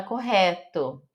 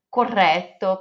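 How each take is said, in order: First: "correto" with a throaty Brazilian H sound for the RR; Portuguese R. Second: "correto" with a trilled rolled double R. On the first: Teacher shows how Brazilians say it, throaty R. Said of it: "a gente fala correto". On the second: Teacher models the correct Italian word, rolled R. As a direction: roll the RR in "correto". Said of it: "precisa falar". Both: Shown as a demonstration.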